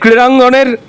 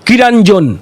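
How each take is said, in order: First: The word begins with a kr consonant cluster. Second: The word begins with ki, with no cluster.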